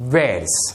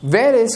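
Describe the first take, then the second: First: The words are joined into one contracted syllable. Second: Both words are said in full.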